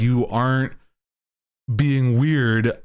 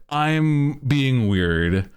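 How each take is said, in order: First: „being weird“ leicht betont und etwas gedehnt; stress on being weird. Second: „I'm“ hochgezogen, der ganze Satz sehr langsam gedehnt; drück das „I'm“ nach oben und zieh „I'm being weird“ langsam auseinander; stress on I'm. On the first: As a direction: sag „you aren't being weird“ ruhig, mit Gewicht auf „weird“. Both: Retold or imitated.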